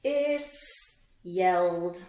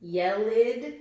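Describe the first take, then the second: First: Yelled said very slowly with a clear final d; It's yelled, one syllable ending in d; slow correct d. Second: Yelled said loud as yell-id with an extra syllable; Yelled with a wrong id ending. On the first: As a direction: stretch yelled so the d is heard. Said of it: "That's the clue". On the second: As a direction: deliberately say yelled as yellid. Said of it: "Which one do you think it is?". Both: Shown as a demonstration.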